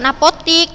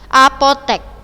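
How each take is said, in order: First: The last vowel is an i sound. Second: The last vowel is an e sound. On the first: The speaker calls it wrong. "apotik itu bukan apotik" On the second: The speaker calls it right. "Itu yang benar bahasa bakunya"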